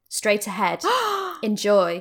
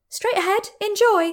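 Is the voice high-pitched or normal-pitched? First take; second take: normal; high. First: It is spoken in a normal pitch. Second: It is spoken in a high pitch.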